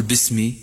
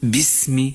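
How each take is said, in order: First: باسمي said as bismi, the error; wrong kasra on ba. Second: باسم said slowly as bismi, ba with kasra; correct بسم. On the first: Teacher shows the error باسمي to a student. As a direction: model the wrong باسمي for the learner. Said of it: "لا تقل باسمي". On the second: Teacher models the right باسم to a student. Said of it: "ولكن قل باسم". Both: Shown as a demonstration.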